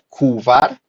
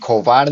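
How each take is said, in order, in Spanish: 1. Se inserta una vocal u entre k y v. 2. Se inserta una vocal o entre k y v. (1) "No se pronuncia kuvar" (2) "ni kovar"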